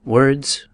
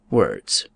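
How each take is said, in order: First: First "Words," lifted with a rising tune; lightly voiced Hamlet brushing off the question; Hamlet, idle reply. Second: Lightly voiced Hamlet dismissing the book; Hamlet, dismissive. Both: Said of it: "Hamlet replied".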